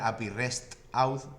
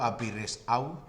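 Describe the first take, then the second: First: The T sound is clearly pronounced. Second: The T sound is left out. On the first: The speaker calls it right. "en vez de pronunciar" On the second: The speaker calls it wrong. "yo digo A P I REST out sin la T"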